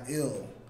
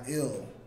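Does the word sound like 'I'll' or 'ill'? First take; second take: ill; ill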